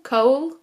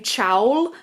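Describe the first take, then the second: First: The name is said like 'Cole'. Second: The name is said like 'Chowl'. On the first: The speaker calls it right. "I think you are meant to pronounce it like Cowl or Cole, Cole, more like that" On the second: The speaker calls it wrong. "In my mind, I want to say Chowl, but it's not Chowl"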